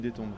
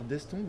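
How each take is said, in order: First: No s sound comes before the t. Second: An s sound comes before the t. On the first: The speaker calls it right. "on dit détombe" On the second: The speaker calls it wrong. "On dit pierre d'estombe ou d'étombe?"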